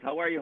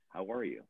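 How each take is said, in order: First: It is said loudly and briskly. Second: It is said softly and slowly.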